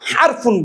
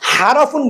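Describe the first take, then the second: First: R runs straight into F, no vowel. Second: A vowel is heard between R and F. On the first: The speaker calls it right. "হারফুন বলতে হবে" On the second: The speaker calls it wrong. "হারাফুন বলা যাবে না"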